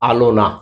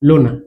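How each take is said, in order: First: The word begins with a vowel sound. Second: The opening vowel sound is dropped. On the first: "আদিতে যেমন ধরো আমরা বলছি আলোনা" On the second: "আদিতে লোপ পাচ্ছে"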